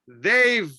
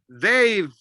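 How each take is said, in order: First: The two words are joined into one syllable. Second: The same.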